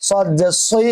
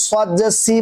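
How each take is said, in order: First: সই with a thick, rounded emphatic s; thickened s in সই; heavy sad. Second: সি with a light s, like "see"; wrong thin sad. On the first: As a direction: make সই full-mouthed, like "soi". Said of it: "মোটা করা হবে". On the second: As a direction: say সি thinly, as for seen. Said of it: "তাহলে সিনের আর সদের মাঝে পার্থক্য থাকবে না". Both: Shown as a demonstration.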